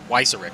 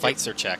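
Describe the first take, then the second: First: The name ends in a plain 'ick' sound. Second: The name ends in a Polish-style 'check' sound. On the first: The speaker calls it right. "It's Weizerick" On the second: The speaker calls it wrong. "I was calling him Weizercheck, and it's like it's not"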